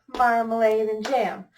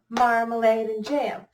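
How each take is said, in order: Both takes have the same delivery.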